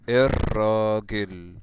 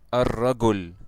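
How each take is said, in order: First: It is said in Egyptian Arabic pronunciation. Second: It is said in Standard Arabic pronunciation. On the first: "This is how it's pronounced in the Egyptian accent" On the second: "in the official language"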